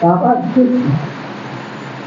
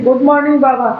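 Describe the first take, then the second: First: The greeting sounds warm and loving. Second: The greeting sounds quick and casual. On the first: The greeting comes from the heart. The speaker calls it right. "पर प्यार से करो" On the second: The greeting is a mere formality. The speaker calls it wrong. "ऐसे नहीं"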